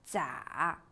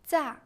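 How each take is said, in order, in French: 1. Le ton descend bas puis remonte. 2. Le ton chute brusquement depuis le haut.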